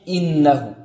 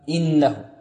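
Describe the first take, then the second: No difference in how they are said.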